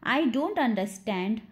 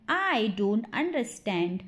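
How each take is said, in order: First: Said in the usual way. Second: Drawn-out, careful demonstration; slow model repeat. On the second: Shown as a demonstration. Teacher repeats the sentence for English learners, slowly. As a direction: say it slowly, word by word.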